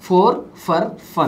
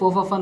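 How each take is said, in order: First: Each word is said fully and separately. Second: The words are said fast and run together.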